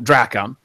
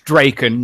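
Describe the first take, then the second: First: The second syllable sounds like 'kon'. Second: The second syllable sounds like 'ken'. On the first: The speaker calls it wrong. "not Drakon" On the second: The speaker calls it right. "It's Draken"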